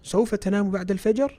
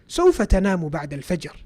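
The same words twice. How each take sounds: First: It is said with a questioning intonation. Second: It is said with a statement intonation. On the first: The speaker is asking whether the listener will sleep. "If you ask it like that, it's a question" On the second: The speaker is stating that the listener will sleep. "then that's not a question"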